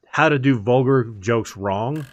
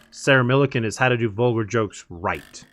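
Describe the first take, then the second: First: Slow, with the weight landing on "wrong"; stress on wrong. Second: "right" given the contrasting weight; stress on right. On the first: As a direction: lean into "wrong" as the bad example. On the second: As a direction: land firmly on "right" as the good example. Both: Real, not acted.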